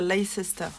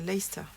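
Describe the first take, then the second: First: The name is said in full, following its spelling. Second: The name is said in a shortened, contracted form. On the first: The speaker calls it wrong. "il ne faut pas dire Leicester" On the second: The speaker calls it right. "C'est Leicester"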